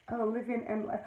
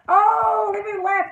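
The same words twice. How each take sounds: First: Reading quietly. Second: High, loud drawn-out "Oh"; delighted greeting. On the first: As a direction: read the name off under your breath. Reading out a new viewer's name. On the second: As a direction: greet the arriving viewer with a burst of delight. Delighted greeting of a viewer joining. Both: Real, not acted.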